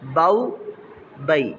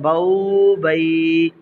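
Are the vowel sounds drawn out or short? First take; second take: short; drawn out. First: The vowels are said short and soft. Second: The vowels are stretched out long. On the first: The speaker calls it right. "अब इसको रमा पढ़ेंगे" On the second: The speaker calls it wrong. "रमा पढ़ते हुए उसको लंबा करते"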